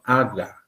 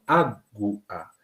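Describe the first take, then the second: First: The u vowel is left out after the g. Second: The u vowel is pronounced after the g. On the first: The speaker calls it wrong. "no estoy diciendo aga" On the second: The speaker calls it right. "estoy pronunciando la vocal U"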